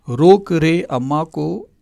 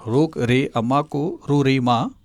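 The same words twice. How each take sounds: First: "रोक रे अम्मा को" slowly and clearly, each word drawn out; slow mnemonic. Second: Slow mnemonic. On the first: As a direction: spell out the memory trick slowly, like a teacher. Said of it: "mnemonic said slowly". (धीमे, साफ़ उच्चारण में याद करने की trick) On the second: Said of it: "mnemonic repeated slowly". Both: Shown as a demonstration.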